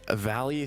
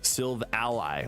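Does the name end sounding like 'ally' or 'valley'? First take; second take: valley; ally. First: The name ends sounding like the word valley. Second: The name ends sounding like the word ally. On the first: "sounds more natural" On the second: "like it's your ally"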